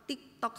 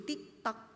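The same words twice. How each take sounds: First: Said in the usual way. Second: "TikTok" whispered with no voice, very soft. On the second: Shown as a demonstration. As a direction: drop "TikTok" to a bare whisper. Listing a routine day.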